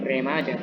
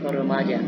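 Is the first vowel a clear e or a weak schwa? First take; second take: clear e; weak schwa. First: The first vowel is a clear, full e sound. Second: The first vowel is a weak, neutral schwa sound. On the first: The speaker calls it wrong. "bukan remaja" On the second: The speaker calls it right. "tapi remaja"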